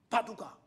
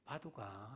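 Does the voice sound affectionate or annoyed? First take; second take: annoyed; affectionate. First: The name is called in an irritated, annoyed tone. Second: The name is called in a warm, affectionate tone. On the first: The speaker finds the dog a nuisance. "개를 뭐 하는 것 같아. 귀찮아하고" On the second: The speaker loves the dog. "바두가 하게 되면은 내가 그 개를 뭐 한다는 겁니까? 사랑한다"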